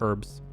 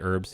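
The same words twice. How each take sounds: First: The word starts with a pronounced H. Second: The word starts with a silent H. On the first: "But I know some people say herbs" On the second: "We say herbs here. With the, with just the H is silent"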